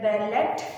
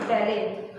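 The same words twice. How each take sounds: First: The T sound is clearly heard. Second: The T sound is silent. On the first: The speaker calls it wrong. "we are not be pronouncing it as ballet" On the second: The speaker calls it right. "It is pronounced as ballet"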